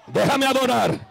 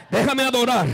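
Both takes have the same delivery.

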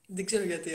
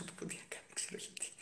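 First: Said in the usual way. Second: Breathy whisper under the breath; whispered aside. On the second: Real, not acted. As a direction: drop to a whisper for "δεν ξέρω γιατί". Muttered aside after admitting ignorance. (ψιθυριστά)

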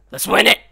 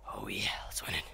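First: Loud, high rallying cry; rally the boys to win; punchy, excited call to victory; hyped-up. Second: Hushed, low-key echo of a cheer; secretive whispered pep talk; whispered hype. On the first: Hyping up, then whispers it. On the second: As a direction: whisper it conspiratorially. Whispered repeat of the rallying cry. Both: Acted.

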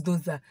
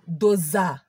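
First: Said in the usual way. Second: "Doza" punched hard with a falling thud; slap sound word. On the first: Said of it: "Do you know what is". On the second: Retold or imitated. Slap sound on her face, "Doza" hit hard. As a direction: smack out "Doza" like a slap landing. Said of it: "Do you know what is "Doza".

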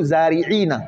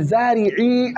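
First: زارعين ending in iina; original with nun. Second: زارعي held on a long final ii; nun dropped. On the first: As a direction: say zaari'iina, na sounded. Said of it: "أصله". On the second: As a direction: say zaari'ii with no na. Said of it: "تحذف النون". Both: Shown as a demonstration.

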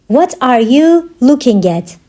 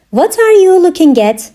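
First: Measured, word-grouped language-lesson delivery. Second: Said in the usual way. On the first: Shown as a demonstration. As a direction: break it up clearly for learners. Teacher repeats question slowly for learners.

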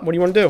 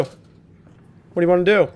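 First: Said in the usual way. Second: Slow, mocking challenge; drawn-out taunt. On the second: Taunting the monster in the game, slow and mocking. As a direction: stretch each word out to taunt.

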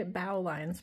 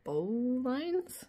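First: "bow" said like the bow of a ship; self-corrected "bow" with an ow sound; "bow" rhyming with cow. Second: "bow" said like "bo", as a question; unsure reading of "bow" with a long o; "bow" rhyming with go. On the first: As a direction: say "bow" as in take a bow. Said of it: "I don't know my boat talk". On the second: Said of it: "bow lines, probably". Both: Real, not acted.

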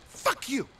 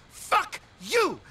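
First: Said in the usual way. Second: Shouted fuck you, a bit higher; angry shout. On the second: Acted. Frightened cousin yelling at Nico in anger. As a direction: snap back at him hard.

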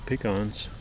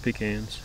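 First: Pecans with an "ah" second syllable; pecans, open "ah" in the last syllable; pecans as pih-KAHNS. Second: Pecans with the "a" of cat; Pecans, short front "a" in the last syllable; Pecans as pih-KANS. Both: Shown as a demonstration. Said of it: "How do you say it?".

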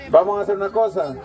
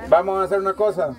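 Both takes have the same delivery.

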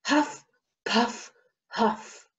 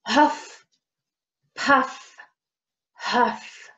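First: Panting huff puff huff; out of breath. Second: Panting again. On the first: A narrator's reading. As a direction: puff like a tired runner. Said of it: "Bear rushed home". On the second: Shown as a demonstration. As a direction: huff puff huff, breathy. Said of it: "let's try that again".

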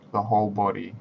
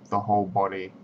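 Both takes have the same delivery.

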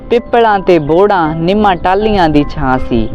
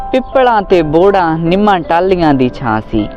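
Both takes have the same delivery.

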